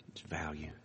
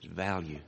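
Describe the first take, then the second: First: Whispered. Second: Said in the usual way. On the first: Shown as a demonstration. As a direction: whisper "value" without voice, very soft.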